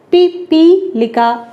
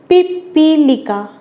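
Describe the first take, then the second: First: पिपीलिका slow, light first syllable, more weight in the middle, then light again; careful syllable stress. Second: Said in the usual way. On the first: Shown as a demonstration. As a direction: spell out पिपीलिका by its stress, slowly. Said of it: "इस पे कम जोर लग रहा है, इस पर ज़्यादा, फिर कम". (पिपीलिका धीरे, बीच पर ज़्यादा ज़ोर) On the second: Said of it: "इसको बोलकर देखें कैसे बोला जाता है".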